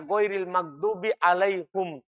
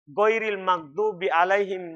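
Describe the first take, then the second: First: The last word is pronounced with a 'u' vowel. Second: The last word is pronounced with an 'i' vowel. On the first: This is a variant reading passed down by transmission. "menjadi apa? Alaihum" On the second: This is the common reading. "dari alaihim"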